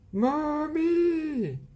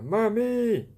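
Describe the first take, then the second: First: It is yelled as loud as possible. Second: It is said a little louder.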